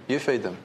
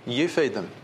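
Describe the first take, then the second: First: You feed them, with You hit bluntly; blunt, stress on you. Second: You feed them, with feed hit bluntly; a blunt order, leaning on feed; blunt, stress on feed. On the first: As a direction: point at them, leaning on You. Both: Retold or imitated. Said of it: "he says very bluntly".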